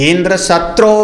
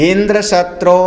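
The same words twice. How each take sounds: Both takes have the same delivery.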